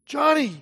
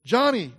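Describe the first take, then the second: First: A higher call that seems distant and muffled; far-off call. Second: A grave voice calling the name from far away; hushed somber summons; somber summoning voice. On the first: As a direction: call as if from far across the water. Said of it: "It sounded far off". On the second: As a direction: summon her slowly, like a solemn call from beyond. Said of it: "A somber voice echoed down some eerie corridor". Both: A narrator's reading.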